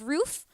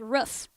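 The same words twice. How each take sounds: First: Roof is said with a standard, non-regional vowel. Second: Roof is said with a Massachusetts-style vowel.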